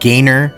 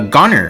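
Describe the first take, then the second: First: The first vowel sounds like 'gay'. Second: The first vowel sounds like 'go'. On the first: "perhaps his name is actually pronounced as uh, Gainer" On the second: "sounds like uh, Goner to me"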